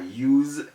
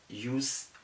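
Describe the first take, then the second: First: The s is sounded like z. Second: The s is sounded like s. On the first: The speaker calls it right. "The correct things to say are" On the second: The speaker calls it wrong. "use is wrong"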